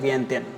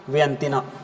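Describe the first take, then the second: First: The name ends in a plain 'n' sound. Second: The name ends with an added 'na' syllable. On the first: "यह है वियंतियन" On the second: "वियंतिना ऐसे ही बोल सकते हैं"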